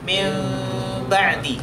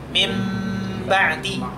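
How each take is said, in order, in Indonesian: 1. Bunyi n tetap dipertahankan tetapi bergerak mendekati m. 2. Bunyi n menjadi m penuh dengan bibir tertutup. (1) "kalau dibaca dengan cara nakis berarti mim ba'di" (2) "Kalau dibaca dengan tam itu kan berarti menjadi mim ba'di"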